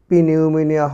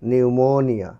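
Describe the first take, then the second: First: The word begins with a sounded p. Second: The word begins with an n sound. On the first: The speaker calls it wrong. "পিনিউমোনিয়া হয়নি" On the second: The speaker calls it right. "হয়েছে নিউমোনিয়া"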